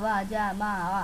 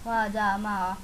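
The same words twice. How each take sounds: The two takes are said the same way.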